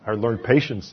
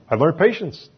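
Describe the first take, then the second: First: Said in the usual way. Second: Louder emphasis. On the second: Acted. Repeats louder and higher.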